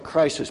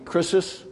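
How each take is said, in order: First: It sounds like the English word crisis. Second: It sounds like the Greek word krisis. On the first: "you could almost pronounce it like crisis" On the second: "but it'd be krisis"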